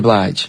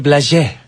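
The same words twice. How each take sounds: First: It is said the usual English way. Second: It is said like a French name.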